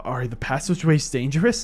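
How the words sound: It is said in an exaggerated anime-character voice.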